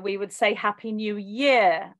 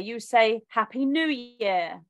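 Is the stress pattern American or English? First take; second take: English; American. First: It uses the English stress placement. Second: It uses the American stress placement. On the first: "And like New Year, we would say Happy New Year" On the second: "Like when it's New Year, you say Happy New Year"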